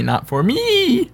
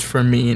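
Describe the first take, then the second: First: "me" drawn out slowly and pitched high with a fall; slow, high "not for me"; stress on me. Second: Said in the usual way. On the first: Shown as a demonstration. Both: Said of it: "It just says".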